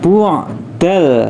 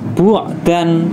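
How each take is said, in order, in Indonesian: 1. Kata ini berakhir dengan bunyi l. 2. Kata ini berakhir dengan bunyi n yang jelas. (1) "tapi dibaca bu'dal, langsung masuk ke huruf lamnya" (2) "maka tidak dibaca bu'dan"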